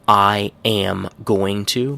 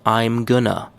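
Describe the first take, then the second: First: Every word is pronounced fully and separately. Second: Going to is squeezed into gonna.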